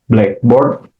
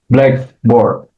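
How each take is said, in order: First: The stress falls on the second word, board. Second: The stress falls on the first word, black. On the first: "adjective plus noun phrase" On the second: It names a board for writing on in class. "There is compound noun"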